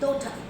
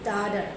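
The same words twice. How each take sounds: First: It is said with a British English accent. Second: It is said with an American English accent. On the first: "English people say daughter" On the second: "Americans say daughter"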